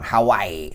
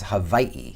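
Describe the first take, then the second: First: It has a W sound and no separate final vowel. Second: It has a V sound and a separate final vowel. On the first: The speaker calls it wrong. "That's my Midwestern accent going Hawaii" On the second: The speaker calls it right. "It's pronounced with a V"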